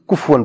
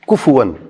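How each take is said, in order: First: The f has no vowel after it. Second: The f is followed by a u vowel. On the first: The speaker calls it wrong. "اکثر پڑھتے ہوئے کفون پڑھتے ہیں، کف سکون نہیں ہے یہاں پہ" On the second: The speaker calls it right. "یہاں پہ ضمہ ہے"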